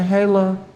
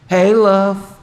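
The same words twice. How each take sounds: First: It is said in a warm, loving tone. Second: It is said in a stern, warning tone.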